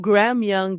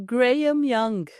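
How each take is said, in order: First: The name is said with an American accent. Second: The name is said with a British accent.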